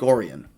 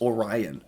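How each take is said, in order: First: It is said the local Michigan way. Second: It is said like the constellation's name. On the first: The speaker calls it right. "Not in Michigan. They pronounce it Lake Orion" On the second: The speaker calls it wrong. "It's just like the Orion's belt"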